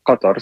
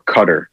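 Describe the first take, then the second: First: It uses the Arabic deep q and emphatic t. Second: It uses plain English k and t sounds. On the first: "in Arabic, it's Qatar" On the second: "in English, they typically say Qatar or Qatar"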